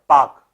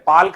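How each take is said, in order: First: The L sound is silent in the word. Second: The L sound is pronounced in the word. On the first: The speaker calls it right. "एल silent है" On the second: The speaker calls it wrong. "पाल्क नहीं पढ़ा जाएगा"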